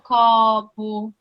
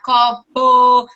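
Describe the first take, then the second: First: Syllables linked, stressed vowel slightly prolonged. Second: Syllables said separately, one by one.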